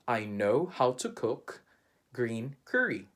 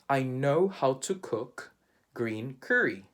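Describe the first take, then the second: The two takes are said the same way.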